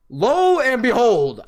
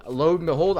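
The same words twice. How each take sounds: First: "Lo and behold" slow, higher and louder, stretched on lo; drawn-out announcement. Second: Said in the usual way. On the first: Shown as a demonstration. Storyteller testing the phrase on the audience, slow and grand. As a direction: proclaim "Lo and behold" grandly and slowly. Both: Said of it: "I'm pretty sure that's how you say it".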